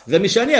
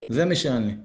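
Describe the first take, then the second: First: High, loud admission pushing toward a demand; insistent plea. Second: Low-key admission; confession. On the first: Teacher voices a penitent before making a request, loud insistent plea. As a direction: own it forcefully, pitched up and loud. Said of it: "ורק לאחר מכן באה הבקשה". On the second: Teacher voices a penitent owning up to reality, subdued confession. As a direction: own up to it, low and matter-of-fact. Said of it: "צריך להכיר במציאות, להתוודות". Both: Acted.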